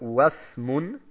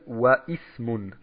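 First: Wa links straight into smun with no vowel. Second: An extra i vowel is said after wa. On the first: The speaker calls it right. "Eigentlich müsste es heißen Wasmun" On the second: The speaker calls it wrong. "darf nicht gelesen werden Waismun. Das ist ein Fehler"

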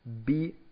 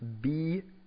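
First: The vowel is short. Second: The vowel is long.

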